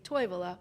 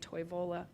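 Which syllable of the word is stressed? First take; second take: first; later. First: The stress is on the first syllable. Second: The stress is not on the first syllable. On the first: Local people say it, closer to Finnish. "local people will say Toivola" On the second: Outsiders reading the name say it. "other people see it, they might say Toivola"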